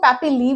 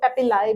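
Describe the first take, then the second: First: The word ends with an 'ee' sound. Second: The word ends with an 'eye' sound. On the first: "बहुत लोग इसको पैपिली भी बोलते हैं" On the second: "बहुत लोग इसको पैपिलाई भी बोलते हैं"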